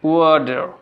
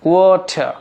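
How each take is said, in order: First: American accent, with the final r sounded. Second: British accent, with the final r silent. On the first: "American" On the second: "British"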